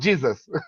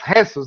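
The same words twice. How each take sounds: First: The name is said the English way. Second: The name is said the Spanish way. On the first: The speaker calls it wrong. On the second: The speaker calls it right. "it's correct"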